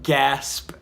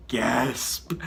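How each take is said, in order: First: Said in the usual way. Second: Breathless unvoiced gasp sound; whispered gasp. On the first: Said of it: "I literally wrote". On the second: Shown as a demonstration. Hero losing air, breathy whispered gasp. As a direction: act out the gasp with breath only. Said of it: "I literally wrote, "Gasp!".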